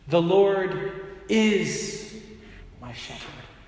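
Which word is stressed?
is. The stress is on the word is.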